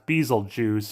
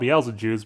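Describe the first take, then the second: First: The name is said to sound like Beetlejuice. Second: The name is said with its intended pronunciation. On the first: A character says the name this way. "like Beetlejuice" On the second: This is how the name is meant to be said. "It's meant to be called"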